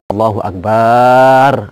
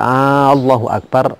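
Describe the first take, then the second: First: The vowel after the b sound is drawn out. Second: The opening vowel of Allahu is drawn out long. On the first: The meaning is changed. "juga tambahan alif setelah ba" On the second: It becomes a question: is God the greatest? "kalau digandeng panjang menjadi Allahu Akbar"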